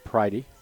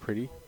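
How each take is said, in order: First: The first vowel sounds like 'eye'. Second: The first vowel sounds like 'ih'. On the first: The speaker calls it right. "It's Pridey" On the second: The speaker calls it wrong. "we've been pronouncing the man we've been calling Jack Pretty by the wrong name"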